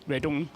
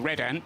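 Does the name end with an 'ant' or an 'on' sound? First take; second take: on; ant. First: The name ends with an 'on' sound. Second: The name ends with an 'ant' sound. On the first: This is how the driver's own name is pronounced. "His name is Redon" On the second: This is how the team's name is pronounced. "the team is called Red Ant"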